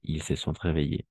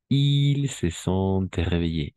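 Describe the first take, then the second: First: Said in the usual way. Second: Slow, drawn-out model sentence. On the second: Shown as a demonstration. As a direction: stretch it so they catch every sound. ("Ils se sont réveillés" muy lento) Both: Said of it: "usted se ha despertado".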